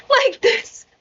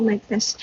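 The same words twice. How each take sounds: First: Hammed-up "Mic test!" with a falling end; announcer-style mic test. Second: Said in the usual way. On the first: Shown as a demonstration. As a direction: bark it out like testing a PA. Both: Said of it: "Nag-mic test si Gago".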